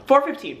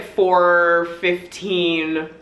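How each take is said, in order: First: Said in the usual way. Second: Very slow, stretched "four fifteen"; drawn-out emphasis. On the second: Real, not acted. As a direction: linger on each word of "four fifteen". Stretches out early call time.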